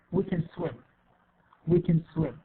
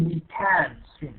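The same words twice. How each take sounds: First: Can weakened to a short 'kin'; reduced form. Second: Can stressed with a full A vowel; full form. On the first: Teacher gives the correct version, can reduced to 'kin'. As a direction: hurry through can as 'kin', land on swim. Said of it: "No, we say". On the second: Teacher shows what not to say, full-vowel CAN. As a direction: give can its whole 'kan' sound. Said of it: "We don't say". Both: Shown as a demonstration.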